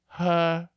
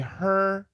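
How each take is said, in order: First: The final R is dropped or weakened. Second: The final R is clearly pronounced. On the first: "he says her, which is not British" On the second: "Typical Americans will say her"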